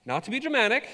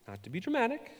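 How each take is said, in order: First: High, overly dramatic "Not to be dramatic". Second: Said in the usual way. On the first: Shown as a demonstration. Preacher hamming up her scary week, dramatic. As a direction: ham it up, pitched high and theatrical. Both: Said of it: "I'm gonna be dramatic".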